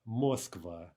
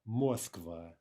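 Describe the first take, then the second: No difference in how they are said.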